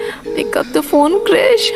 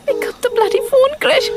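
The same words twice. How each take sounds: First: Impatient plea. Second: High, frustrated urging into the phone; exasperated. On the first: Waiting for unanswered call. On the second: Woman cursing an unanswered call, exasperated. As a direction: let impatience push the pitch right up. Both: Acted.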